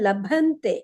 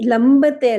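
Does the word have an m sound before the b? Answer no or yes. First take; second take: no; yes. First: It has no m sound, with an aspirated bh. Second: It has an m sound before a plain b. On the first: The speaker calls it right. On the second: The speaker calls it wrong. "ಲಂಬತೆ ಅಲ್ಲ"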